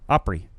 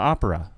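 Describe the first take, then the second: First: It is said in a rural Southern accent, two syllables. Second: It is said in a standard accent with three syllables.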